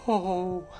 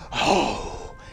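First: It sounds sad. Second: It sounds angry.

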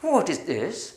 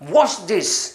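First: The question is said in a doubtful tone. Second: The question is said in an angry tone. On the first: The asker is unsure what the thing is. "സംശയത്തോട് ചോദിക്കുകയാണെങ്കിലോ" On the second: The asker is annoyed by the thing. "ദേഷ്യപ്പെട്ട് നമ്മൾ പറയുകയാണെങ്കിൽ"

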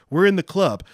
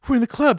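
First: It is said in the speaker's own normal voice. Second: It is said in an imitated, put-on voice. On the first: The speaker calls it wrong. "I'm sorry. I need to do the Wahlberg voice" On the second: The speaker calls it right. "I need to do the Wahlberg voice"

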